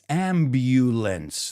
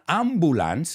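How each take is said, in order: First: The middle vowel sounds like the word 'you'. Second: The middle vowel is a plain 'uh' sound. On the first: The speaker calls it right. "That U is pronounced like you" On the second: The speaker calls it wrong. "it's not ambulance"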